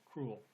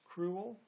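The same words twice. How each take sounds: First: The word is said with one syllable. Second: The word is said with two syllables. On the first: "or as one syllable" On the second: "pronounced as two syllables"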